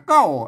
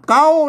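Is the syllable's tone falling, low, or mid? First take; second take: low; mid. First: The syllable has a low tone. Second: The syllable has a level mid tone. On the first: "ใส่ไม่เอก" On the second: "นั่นก็เสียงสามัญนะ"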